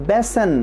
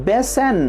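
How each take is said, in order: The two takes are said the same way.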